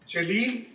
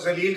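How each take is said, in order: First: The word begins with a j sound. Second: The word begins with a z sound. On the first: Someone glorious with an aura. "जलील one who has an aura" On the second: Someone mean or contemptible. "जलील का मतलब होता है कमीना"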